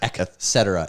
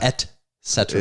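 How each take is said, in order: First: The first syllable is not said as 'et'. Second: The first syllable is said as 'et'. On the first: The speaker calls it wrong. "Everyone says et cetera" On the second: The speaker calls it right. "It's et cetera"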